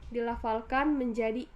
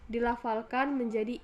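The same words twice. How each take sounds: Both takes have the same delivery.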